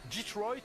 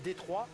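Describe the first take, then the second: First: The name is said with an American pronunciation. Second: The name is said with a French pronunciation. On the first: "si l'on prononce à l'américaine" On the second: "à la française"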